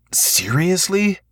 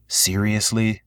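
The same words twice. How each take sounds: First: Much higher, slow incredulous; can't believe this, drawn out; exasperated disbelief. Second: Said in the usual way. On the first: A narrator's reading. Repeated, disbelieving.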